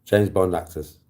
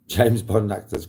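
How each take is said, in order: First: Said in the usual way. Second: James Bond actors dragged out slowly as a teasing prompt; slow quizmaster drawl; slow, drawn-out prompt. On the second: Shown as a demonstration. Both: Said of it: "Come on, folks".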